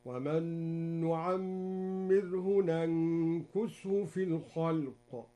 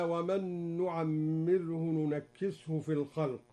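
First: Slow chanted recitation with ننكسه said nankushu; Duri reading, recited. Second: Said in the usual way. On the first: Shown as a demonstration. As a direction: nankushu with a on the first n and u on the k. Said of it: "هكذا". (ننكسه بفتح النون وضم الكاف بترتيل) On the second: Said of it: "قرأ الدوري بفتح النون الأولى".

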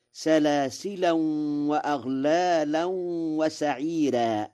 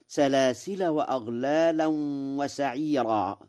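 First: "سلاسلا" recited as salasilan, humming into the next w; tanween in joining. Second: "سلاسل" recited as salasila; no tanween. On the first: Teacher shows Warsh's reading, "سلاسلا" as salasilan with tanween. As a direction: say "سلاسلا" with a nasal n ending, salasilan. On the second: Teacher quotes the verse, "سلاسل" as salasila without tanween. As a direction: say "سلاسل" ending in a short a, no n. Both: Shown as a demonstration. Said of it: "بالتنوين وصلا في سلاسل".

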